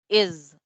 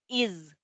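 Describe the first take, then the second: First: The vowel sits between 'ee' and 'eh' sounds. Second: The vowel is a clear, tense 'ee' sound. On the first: The speaker calls it right. "como entre una I y una E" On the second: The speaker calls it wrong. "no es is"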